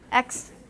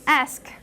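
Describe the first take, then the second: First: The k sound comes before the s sound. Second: The s sound comes before the k sound. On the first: "people saying X" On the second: "That's how it became ask"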